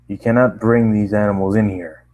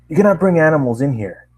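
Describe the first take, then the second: First: It is read in the reader's plain voice. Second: It is read in a put-on guard's voice.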